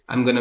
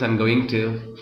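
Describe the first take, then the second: First: It is reduced to a short 'gonna'. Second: Each word of 'going to' is said fully. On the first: It is informal speech. "in informal English we just say gonna" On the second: It is formal speech. "in formal English that we say going to"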